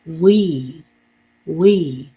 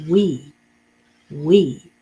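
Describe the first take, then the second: First: We said louder and clear; modeled word. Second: We said louder again after the sounds; modeled word. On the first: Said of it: "The next word is". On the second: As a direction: repeat we clearly after breaking it down. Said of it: "W has the W sound". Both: Shown as a demonstration.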